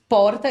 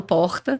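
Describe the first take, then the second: First: "porta" with the R sound foreign to the speaker; "porta" said with the other accent's R; regional R demo. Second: Said in the usual way. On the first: Shown as a demonstration. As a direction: imitate another region's R in "porta". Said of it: "esse porta eu não chego de jeito nenhum nele". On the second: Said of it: "eu falo porta".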